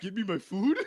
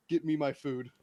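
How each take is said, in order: First: "Give me my food?" with a rising question ending; "Give me my food?" lifted at the end like a question mark. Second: "Get me my food." with a falling, final ending like a full stop; "Get me my food." as a blunt command ending in a fall; flat statement. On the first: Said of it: "Question mark?". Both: Shown as a demonstration.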